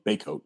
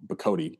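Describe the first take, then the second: First: Baycoat said as BAY-coat; preferred pronunciation. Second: Bacote slowly, unlike "Baycoat"; alternative pronunciation. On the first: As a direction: settle on Baycoat, first syllable like "bay". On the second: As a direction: offer Bacote as the other reading, first syllable "buh". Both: Shown as a demonstration. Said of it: "I think you pronounce his last name".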